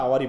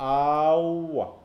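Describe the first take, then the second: First: The word ends with an audible r sound. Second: The word ends on a vowel with no r. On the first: "আমরা আওয়ারই বলি" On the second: "a careful pronunciation of the word awa"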